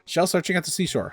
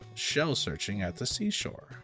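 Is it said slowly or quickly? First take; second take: quickly; slowly. First: It is said quickly. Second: It is said slowly.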